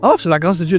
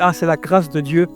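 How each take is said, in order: First: It is said as a showy, stylish catchphrase. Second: It is said sincerely, as heartfelt thanks.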